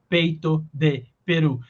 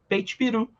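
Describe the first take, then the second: First: Every word is pronounced fully and separately. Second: The middle word is dropped and the words blend. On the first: This is the careful, fully articulated form. "ao invés de falar peito de peru" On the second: This is how people naturally speak. "a gente fala peito peru"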